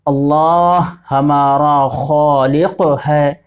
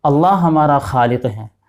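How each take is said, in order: First: Over-articulate "اللہ ہمارا خالق ہے" the Arabic way, slow and heavy; exaggerated throaty Arabic "خالق"; wrong Arabic-style pronunciation. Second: Natural light Urdu "خالق"; correct Urdu pronunciation. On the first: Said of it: "تو یہ صحیح نہیں ہے". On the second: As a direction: ease through "اللہ ہمارا خالق ہے" with gentle Urdu sounds. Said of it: "بلکہ اس کو کیسے بولیں گے". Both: Shown as a demonstration.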